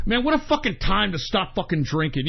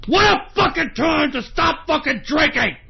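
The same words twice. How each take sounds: First: Said in the usual way. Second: High, worked-up shout; angry yell. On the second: Real, not acted. Broadcaster fuming at bad timing, high angry yell. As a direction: repeat it as an exasperated holler. Angry repeat of the same words.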